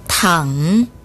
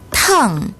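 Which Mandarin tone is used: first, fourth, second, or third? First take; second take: third; fourth. First: The pitch dips low, then rises. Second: The pitch falls sharply from high. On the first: It means to lie down. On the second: It means hot.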